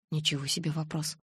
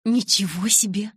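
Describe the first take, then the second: First: Soft aside to oneself; muted inner remark. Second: Louder, higher, thrilled "wow"; delighted exclamation. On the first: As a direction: think it quietly, without exclaiming. Narrator's inner remark, unexcited. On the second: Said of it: "восторженно воскликнула она". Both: A narrator's reading.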